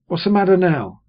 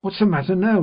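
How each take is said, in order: First: Sharp, higher, louder snap; a sister cutting in at the table; sister, said smartly. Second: Sharper, high and loud demand; sister, more sharply. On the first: Sister snapping at the table, sharp and loud. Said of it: "she said smartly". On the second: Sister losing patience, demanding an answer sharply. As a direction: bite the words off harder. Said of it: "repeated my sister more sharply than before". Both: A narrator's reading.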